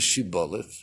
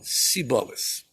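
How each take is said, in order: First: The word begins with an sh sound. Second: The word begins with an s sound. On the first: The speaker is from Gilad. The speaker calls it right. "chamada shibolet" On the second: The speaker is from Efraim. The speaker calls it wrong. "E eles falaram siboles"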